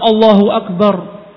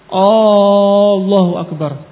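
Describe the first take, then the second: First: The opening vowel is kept short. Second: The opening vowel is drawn out long. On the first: It states that God is the greatest. The speaker calls it right. "Yang seharusnya Allahu Akbar" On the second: It asks whether God is the greatest. The speaker calls it wrong. "Kalau dia menambah alif"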